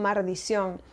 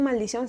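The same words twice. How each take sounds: First: The first syllable ends with an R sound. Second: The first syllable ends with an L sound. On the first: "sino que le ponen la R" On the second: "no dicen maldición"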